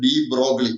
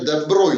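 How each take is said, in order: First: The name is said like 'dee brog-lee'. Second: The name is said like 'duh broy'. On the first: The speaker calls it wrong. "Some people are wrongly called" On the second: The speaker calls it right. "അദ്ദേഹത്തിന്റെ പേര് ദെ ബ്രോയി എന്നാണ്"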